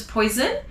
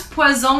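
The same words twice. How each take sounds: First: Poison said the English way, poy-zn. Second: Poison said pwa-zon with a z; French poison. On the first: Teacher giving the English word poison. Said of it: "which is poison". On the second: Teacher showing the French poison. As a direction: voice the single s in poison as z. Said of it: "one's poison". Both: Shown as a demonstration.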